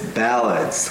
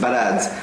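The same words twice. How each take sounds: First: The word is said slowly with a stretched vowel. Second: The word is said quickly with a short vowel. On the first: The speaker calls it right. "but it's ballads" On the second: The speaker calls it wrong. "we're a little lazy with this word. We don't say ballads"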